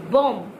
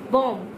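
The two takes are said the same way.

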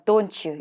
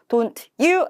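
First: The t and y blend into ch. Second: The t and y stay separate sounds. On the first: The speaker calls it right. "Don't you 이렇게 연음될 겁니다" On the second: The speaker calls it wrong. "Don't you 아니고요"

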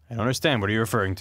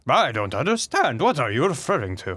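First: It is read in the speaker's ordinary voice. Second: It is read in a put-on alien British accent.

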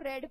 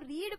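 First: The vowel is a short 'e' sound. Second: The vowel is a long 'ee' sound. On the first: The action happened in the past. "दूसरे को रेड pronounce किया जाता है" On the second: The action happens now or in general. "एक को रीड pronounce किया जाता है"

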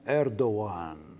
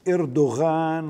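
First: It begins with 'Er' and has no 'gh' sound. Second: It begins with 'Er' and has a 'gh' sound. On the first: The speaker calls it right. "اسمه إردوان" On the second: The speaker calls it wrong. "ليس اسمه إردوغان"

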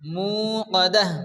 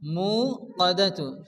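First: The word ends with an h sound. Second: The word ends with a tu sound. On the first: The speaker calls it right. "এই তাটা হাত সাকিনে পরিণত হবে" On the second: The speaker calls it wrong. "কাদাতু হবে না"

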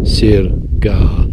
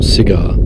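First: It sounds like the words sir gar. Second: It sounds like the word cigar. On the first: The speaker calls it right. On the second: The speaker calls it wrong. "Not cigar"

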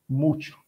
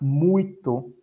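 First: The middle consonant sounds like ch. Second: The middle consonant is a plain t sound.

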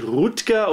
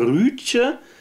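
First: The name is said with a hard g ending. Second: The name has a rounded ü and soft ending. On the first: The speaker calls it wrong. "Also nicht Rutger" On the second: The speaker calls it right. "sondern Rütje Hauer"

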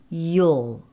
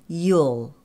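No difference in how they are said.

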